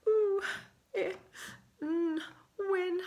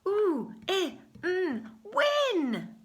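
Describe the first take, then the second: First: The voice sounds sad and low. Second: The voice sounds excited and lively. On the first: "Can you say it in a very sad voice?" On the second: "Say it in an excited voice"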